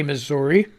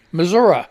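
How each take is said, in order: First: Missouri with a final "ee" sound; ending in -ee. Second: Missouri with a final "uh", punched louder; local "Missoura". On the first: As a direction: say Missouri ending in a clear "ree". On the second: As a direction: say Missouri as "muh-ZOR-uh", firmly. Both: Shown as a demonstration. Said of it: "You don't say Missouri".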